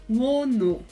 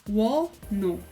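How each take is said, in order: No difference in how they are said.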